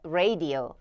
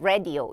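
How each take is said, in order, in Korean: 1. 이 단어는 더 길게, 늘여서 발음해요. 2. 이 단어는 짧게 발음하고, 길게 늘이지 않아요. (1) "radio radio라고 조금 더 길게 끌어주시면 되겠고요" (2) "많은 분들이 radio 혹은 뭐 radio 이렇게까지만 발음을 하시는데"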